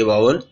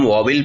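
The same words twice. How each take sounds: First: वावल said with an open वा, then वल; correct pronunciation. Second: वॉवेल said with a rounded वॉ, the wrong way; wrong pronunciation. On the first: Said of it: "इसको वावल पढ़ेंगे". (वावल, सही उच्चारण में) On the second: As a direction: say वॉवेल as the mistaken reading. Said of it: "वॉवेल नहीं, इसको वावल पढ़ेंगे". (वॉवेल, ग़लत उच्चारण की तरह) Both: Shown as a demonstration.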